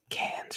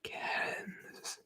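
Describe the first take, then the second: First: "Cairns" as "Cans"; local pronunciation. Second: "Cairns" drawn out with its full vowel glide; mispronunciation. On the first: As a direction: say "Cairns" in one syllable without the R. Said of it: "should be pronounced". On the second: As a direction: stretch "Cairns" out, softer, as spelt. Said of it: "not Cairns". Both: Shown as a demonstration.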